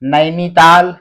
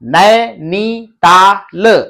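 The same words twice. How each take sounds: First: The word is said at a moderately quick pace. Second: The word is said slowly, broken into parts. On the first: "अब आपको थोड़ा जल्दी" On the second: "ऐसे तोड़ तोड़ के आपको पढ़ना पड़ेगा"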